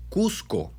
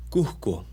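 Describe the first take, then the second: First: Cusco whispered slowly with a crisp, clear s; whispered correct s. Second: Cusco said as kuhko, the s breathed out like h; aspirated s. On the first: Teacher whispering the right Cusco with a clear s. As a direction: hiss the s in Cusco clearly, under the breath. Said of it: "no es Cusco, es Cusco". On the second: Teacher showing the wrong kuhko, s aspirated. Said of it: "no es Cusco". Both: Shown as a demonstration.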